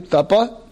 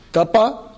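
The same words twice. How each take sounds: First: Tapa spoken as two crisp syllables, rising; Tapa, repeated one word at a time; staccato. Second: Tapa spoken as two crisp syllables, rising at the end; Tapa, one word at a time, clearly; staccato. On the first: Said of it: "So one more time". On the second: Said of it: "you repeat after me one word at a time". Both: Shown as a demonstration.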